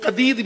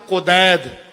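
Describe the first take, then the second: First: The name is said as Qadeed. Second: The name is said as Qudaid. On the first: "उसको कदीद भी पढ़ते हैं" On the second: "एक मकाम आता है मकाम कुदैद"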